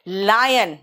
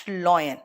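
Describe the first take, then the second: First: Lion with an open "lie"; correct pronunciation. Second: Lion as "loy-en"; lower, rounded "oy" in lion; mispronunciation of lion. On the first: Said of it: "So this is". (lion को "लायन" बोलें) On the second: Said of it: "not lion". (lion को गलत "लॉयन" बोलें) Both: Shown as a demonstration.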